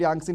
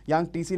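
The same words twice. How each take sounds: First: यांगसी with no "t" sound; variant pronunciation. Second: यांगटीसी with the "t" sounded; variant pronunciation. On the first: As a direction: say यांगसी in two syllables, "yang-see". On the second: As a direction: say यांगटीसी in three syllables, "yang-tee-see". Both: Shown as a demonstration. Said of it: "या फिर यांगसी नदी".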